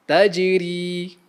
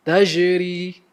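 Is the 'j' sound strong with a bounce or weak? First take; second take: strong; weak. First: The 'j' is strong with a bouncing release. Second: The 'j' is weak with no bouncing release. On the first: The speaker calls it right. "jim juga akan menghasilkan lantunan bunyi apabila disukunkan" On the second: The speaker calls it wrong. "jangan pula kita melemahkan bunyi jim seperti"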